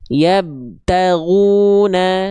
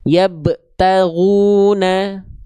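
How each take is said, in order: First: The b is said with no bounce at all. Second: The b bounce is held back and cut short. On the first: "nggak dipantulkan sama sekali" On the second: "pantulannya terta tertahan"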